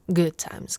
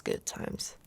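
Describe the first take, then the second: First: Said in the usual way. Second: Good times trailed off in a soft whisper; whispered wistful repeat of "good times"; whispered echo. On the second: Acted. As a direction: echo "good times" softly under your breath.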